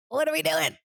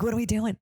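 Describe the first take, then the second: First: High-pitched mock exasperation; squeaked-up exasperated question; exasperated outburst. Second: Slightly raised, puzzled question; first, restrained take of exasperation; exasperated question. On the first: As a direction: repeat it much higher, as if at wit's end. Acted exasperation, repeated higher. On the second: Acted. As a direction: ask it in mild mock exasperation.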